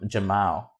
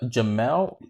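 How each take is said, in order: First: The second vowel sounds like 'ah'. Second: The second vowel sounds like 'eh'. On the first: The speaker calls it wrong. "I've been calling him Jam Jamal" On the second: The speaker calls it right. "it was an E instead of an A"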